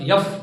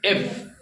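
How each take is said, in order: First: The letter name begins with a y sound. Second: The letter name begins directly with a vowel. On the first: The speaker calls it wrong. "बहुत सारे जन इसे पढ़ती यफ" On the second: The speaker calls it right. "यफ ने है एफ है"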